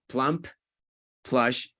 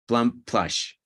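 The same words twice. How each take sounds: First: The two words are said separately with a break. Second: The two words are linked together without a break. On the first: The speaker calls it wrong. "If you do this, plump, plush takes more time" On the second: The speaker calls it right. "Just do the linking and go"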